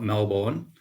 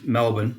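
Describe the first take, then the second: First: Melbourne is pronounced the American way. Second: Melbourne is pronounced the Australian way. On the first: It names the town in Florida. The speaker calls it wrong. "not Melbourne. Melbourne's in Florida" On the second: It names the city in Victoria, Australia. The speaker calls it right. "It's it's Melbourne"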